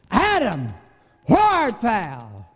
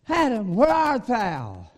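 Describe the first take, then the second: First: The voice sounds angry and harsh. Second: The voice sounds flat and indifferent. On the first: God is furious with the man. "read it as if God said it in anger" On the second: God does not care about the man. "read it as if God was just unconcerned"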